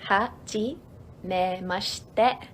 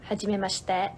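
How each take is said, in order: First: "Hajimemashite" drawn out slowly in separate syllables. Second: Said in the usual way. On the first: Shown as a demonstration. Teacher breaking down a greeting, syllable by syllable. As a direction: say "Hajimemashite" bit by bit with pauses.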